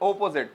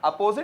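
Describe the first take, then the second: First: The first vowel is an o sound. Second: The first vowel is an a sound. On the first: The speaker calls it right. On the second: The speaker calls it wrong.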